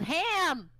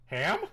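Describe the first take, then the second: First: Sudden high, loud yell imitating a friend; retold yell. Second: Puzzled questioning echo, slightly higher; retold confusion. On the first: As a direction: blurt it out as a mock yell. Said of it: "she was, just yelled". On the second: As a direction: ask it back as if baffled. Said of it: "just as confused".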